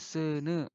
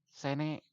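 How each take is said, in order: First: The vowels are eu sounds. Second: The vowels are plain e sounds. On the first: The speaker calls it right. "Tapi seuneu, tah ieu huruf vokalna E" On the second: The speaker calls it wrong. "sanes oge sene"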